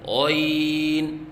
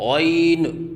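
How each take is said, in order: First: The final n is held without a bounce. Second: The final n ends with a bounce. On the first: The speaker calls it right. "आखिर में नून पढ़ें" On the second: The speaker calls it wrong. "आखिर में नून के ऊपर क़लक़ला करते हैं, ये गलत है"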